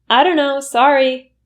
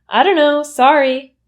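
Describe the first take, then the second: Both takes have the same delivery.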